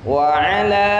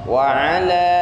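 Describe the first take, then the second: Both takes have the same delivery.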